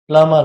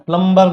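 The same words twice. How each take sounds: First: No b sound is heard after the m. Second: A b sound is heard after the m. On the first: The speaker calls it right. "ये बी जो है यहाँ पर silent होता है, प्लम्बर होता है" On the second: The speaker calls it wrong. "प्लम्बर नहीं होता"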